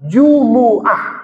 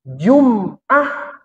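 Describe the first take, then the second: First: The 'm' is followed by a vowel. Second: The 'm' has no vowel after it. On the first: The speaker calls it right. "Kalau Jumu'ah mimnya hidup. Lebih bagus hidup" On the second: The speaker calls it wrong. "kalau Jum'ah mimnya mati"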